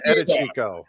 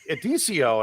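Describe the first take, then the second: First: The name is said in full as Edichico. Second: The name is shortened to Edicio. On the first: The speaker calls it right. "who are you talking about?" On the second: The speaker calls it wrong.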